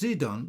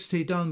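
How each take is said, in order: First: The name begins with a Z sound. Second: The name begins with an S sound. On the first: "Zidon with a Z" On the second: "Sidon with an S"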